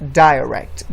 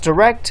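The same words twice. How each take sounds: First: The word is said with a British pronunciation. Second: The word is said with an American pronunciation. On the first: "while in British, it's pronounced" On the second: "in American English, it's pronounced"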